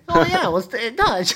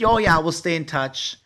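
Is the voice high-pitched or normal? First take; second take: high-pitched; normal. First: It is said in a higher-pitched, childlike voice. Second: It is said in a normal speaking voice.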